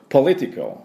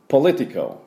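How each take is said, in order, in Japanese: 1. 最初の音節にアクセントがあります。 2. 最初の音節にアクセントがあります。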